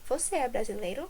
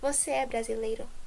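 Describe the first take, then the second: First: It has the intonation of a question. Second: It has the intonation of a statement. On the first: It asks whether the listener is Brazilian. "Now interrogative" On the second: It states that the listener is Brazilian. "starting with affirmative"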